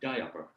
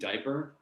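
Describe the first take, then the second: First: The first vowel is drawn out and exaggerated. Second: The first vowel is said in a plain way. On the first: "overemphasize the diphthong quality" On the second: "instead of saying diaper"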